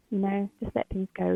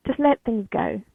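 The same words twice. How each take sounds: First: Said in the usual way. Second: Louder, pressing on "let"; firm urging. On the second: Real, not acted. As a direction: urge them to "let things go". Repeats advice, first take.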